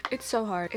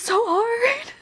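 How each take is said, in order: First: Said in the usual way. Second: High, loud, slow wailing whine; a mock-dramatic wail about how hard it is; exaggerated whine. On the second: Real, not acted. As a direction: stretch it out as a hammed-up moan. Venting about rejection, exaggerated wail.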